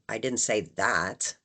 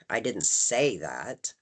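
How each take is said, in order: First: The stress falls on the word that. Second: The stress falls on the word say. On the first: Something was said, but not that. "implying that I said something, it just wasn't that" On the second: Those words were not used, but that was meant. "Putting the emphasis on say"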